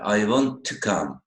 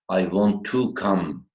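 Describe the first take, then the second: First: The word 'to' is reduced and unstressed. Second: The word 'to' is said fully, with stress. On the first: The speaker calls it right. "the pronunciation should be like this" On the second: The speaker calls it wrong. "most of the students would say"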